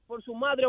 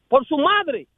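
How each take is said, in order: First: Softer echo of madre; quiet repeat. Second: Punched and louder; emphatic. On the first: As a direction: drop the voice on madre. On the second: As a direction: stress MADRE hard and loud. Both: Real, not acted.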